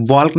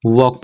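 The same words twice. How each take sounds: First: वॉक said with a sounded l, like walk spelled out; wrong walk. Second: वॉक said as wawk with a silent l; correct walk. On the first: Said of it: "वॉक नहीं पढ़ोगे". (वॉक को गलत, l बोलकर) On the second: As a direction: drop the l in वॉक, say it clean. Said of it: "इसे पढ़ोगे वॉक". (वॉक को सही, l के बिना) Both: Shown as a demonstration.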